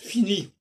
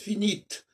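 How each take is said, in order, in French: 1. Le t final n'est pas prononcé. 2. Le t final est clairement prononcé. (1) "ça se prononce fini, sans T" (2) "ça se prononce finite si c'est au féminin"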